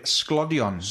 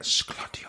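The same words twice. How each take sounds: First: Said in the usual way. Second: SGLODION fully whispered; soft whispered Welsh trigger word; ASMR whisper. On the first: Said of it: "one of the words in particular was the word sglodion". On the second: Shown as a demonstration. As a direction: breathe out "Sglodion" with no voice. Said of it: "It's literally like".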